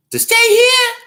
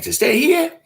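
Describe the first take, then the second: First: Very high, loud disbelieving squeal; incredulous shriek. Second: High, loud disbelieving question; incredulous squeal. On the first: Host to a pushy fan, shrieking in disbelief. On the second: Host to a pushy fan, squealing in disbelief. Retells his reply again. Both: Retold or imitated.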